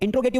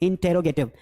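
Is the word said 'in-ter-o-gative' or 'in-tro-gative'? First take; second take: in-tro-gative; in-ter-o-gative. First: The word is said as in-tro-gative. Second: The word is said as in-ter-o-gative. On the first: This is an old-fashioned way of saying it. The speaker calls it wrong. "इंट्रोगेटिव मत बोलना, बहुत पुरानी English में बोलते थे" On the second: This is the current way of saying it. The speaker calls it right. "अब हम बोलते हैं इंटेरोगेटिव"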